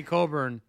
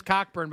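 First: Coburn said with silent CK, as KOH-burn; softened pronunciation. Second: Cockburn said as written, with the CK sounded; spelling pronunciation. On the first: Player offers the politer name, Coburn pronounced KOH-burn. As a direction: say Coburn with a long O and no K before the B. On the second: Player apologizes for his last name, Cockburn pronounced as spelled. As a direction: say Cockburn as COCK-burn. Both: Acted. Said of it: "surprised it's pronounced Coburn".

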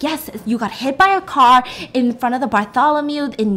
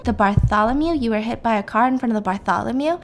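First: Said in the usual way. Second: "Bartholomew" rising into a question each time; questioning echo. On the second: Retold or imitated. Patient checking where the car hit, questioning rise on "Bartholomew". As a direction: repeat it back, lifting the end on "Bartholomew". [name] echoes location as question.

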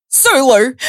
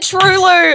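First: Higher, mock-starstruck "Sue Lou"; hammed-up excited call of "Sue Lou"; excited recognition. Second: "Sue" mispronounced as "True", high and amused; excited wrong-name "True Lou"; mistaken "True Lou". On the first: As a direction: imitate a stranger excitedly spotting "Sue Lou". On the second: Retold or imitated. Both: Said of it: "No, she said it wrong".

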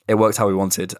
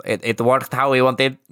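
First: Said in the usual way. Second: Slow, higher Spanish accent. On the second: Shown as a demonstration. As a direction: Unai Emery's Spanish accent. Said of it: "I was gonna do a Spanish accent".

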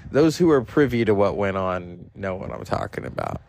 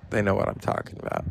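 First: Said in the usual way. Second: Quick, breathy whispered aside; knowing whisper. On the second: Real, not acted. To viewers who were there, a quick knowing whisper. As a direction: let it slip out as a hushed in-joke.

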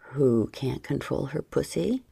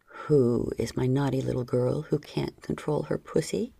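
First: Said in the usual way. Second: Sterner low male repeat. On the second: A narrator's reading. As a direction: ask it again, sterner and lower. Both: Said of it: "he repeated more sternly".

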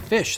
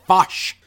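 First: Said in the usual way. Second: "fosh", fish with an o vowel; vowel swapped. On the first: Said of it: "English accents with a little bit of a". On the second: Shown as a demonstration. Mocking actors' fake Scottish, "fosh" with a rounded short o. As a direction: say "fosh" for fish, punched a little louder. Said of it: "they'll say, like".

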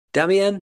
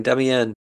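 First: Damian called out higher and louder, as if across a room; calling out. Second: Said in the usual way. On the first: Real, not acted. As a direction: shout Damian's name to get his attention. Calling out to absent friend.

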